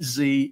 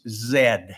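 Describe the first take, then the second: First: The letter is said the American way, 'zee'. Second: The letter is said the British way, 'zed'.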